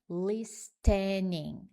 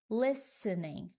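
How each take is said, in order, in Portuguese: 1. O T do meio é pronunciado. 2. O T do meio é silencioso. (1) "a pronúncia não é listening" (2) "você ignora completamente o T"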